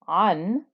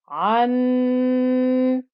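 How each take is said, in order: First: The final nasal sound is short, not held. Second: The final nasal sound is held long. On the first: The speaker calls it right. "instead of saying an" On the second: The speaker calls it wrong. "I held it, ... but that would be incorrect"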